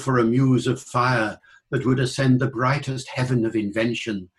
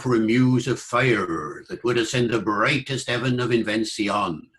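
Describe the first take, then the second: First: It is in modern standard British received pronunciation. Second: It is in a reconstructed Shakespearean-era English accent. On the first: "in British English would go in received pronunciation" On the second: "in original pronunciation"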